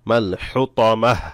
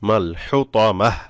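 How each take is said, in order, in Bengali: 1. শব্দটি একটি খালি 'h' ধ্বনি দিয়ে শেষ হয়েছে। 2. শব্দটি একটি খালি 'h' ধ্বনি দিয়ে শেষ হয়েছে।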